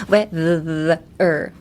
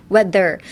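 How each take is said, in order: First: "weather" slowed, long buzz on th; stretched vibrating th. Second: Said in the usual way. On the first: Shown as a demonstration. Teacher demonstrating the th vibration, word stretched out. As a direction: draw out the th in "weather" between its two halves. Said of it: "and make a vibration". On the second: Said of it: "when I'm saying it".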